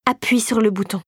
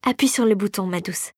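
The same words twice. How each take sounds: First: Understated menacing command; insistent, menacing. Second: Smooth coaxing, softening on the endearment; unctuous. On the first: Regent orders the reluctant girl, insistent and menacing. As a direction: give the order evenly, without coaxing. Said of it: "au regard soudain assassin". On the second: Fairy urges the girl to start the machine, unctuous. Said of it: "d'une voix onctueuse". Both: A narrator's reading.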